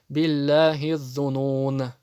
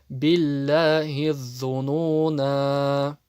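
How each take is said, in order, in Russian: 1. Слово обрывается резко, без конечного гласного звука. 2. Конечный гласный звук произносится и растягивается. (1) "прочитают билляхи зунун. Нет" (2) "При остановке"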